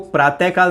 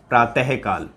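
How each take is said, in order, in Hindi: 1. यह शब्द ढीले और लापरवाह तरीके से बोला गया है। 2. इस शब्द की हर ध्वनि सावधानी से बोली गई है। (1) "तो वो प्रातःकाल नहीं होता" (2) "उच्चारण देखिए, प्रातःकाल होता है"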